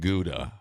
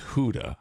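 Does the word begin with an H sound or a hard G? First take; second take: hard G; H sound. First: The word begins with a hard G sound. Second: The word begins with a breathy H-like sound. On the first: The speaker calls it wrong. "mispronouncing the Dutch language completely wrong" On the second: The speaker calls it right. "It's Huda"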